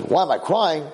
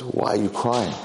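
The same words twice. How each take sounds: First: Higher, indignant echo question; acted affronted surprise; startled retort. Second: Said in the usual way. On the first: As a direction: throw the question back, pitched up. Startled boy retorts to stranger.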